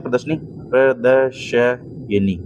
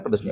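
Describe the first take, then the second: First: Slow, drawn-out प्रदर्शनी as "pra-da-sha-ye-ni"; wrong form, spelt out. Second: Said in the usual way. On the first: Shown as a demonstration. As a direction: break प्रदर्शनी into syllables. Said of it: "ये गलती है". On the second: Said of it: "प्रदर्शनी होता है".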